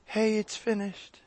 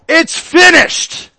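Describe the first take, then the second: First: It is said casually and quietly. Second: It is yelled loudly with force.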